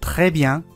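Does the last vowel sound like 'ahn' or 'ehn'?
ahn. The last vowel sounds like 'ahn'.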